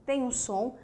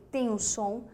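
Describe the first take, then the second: No difference in how they are said.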